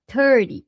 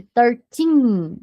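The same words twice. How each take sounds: First: "thirty" stressed up front with tapped T; brief unstressed end on "thirty"; THIRTY short ending. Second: Put-on "thirteen" with long stressed "teen"; THIRTEEN drawn out. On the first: Teacher contrasts thirty with thirteen, short tapped ending. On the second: Teacher contrasts thirteen with thirty, long final syllable. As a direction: pull out the end of "thirteen". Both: Shown as a demonstration. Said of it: "tomar cuidado com a pronúncia".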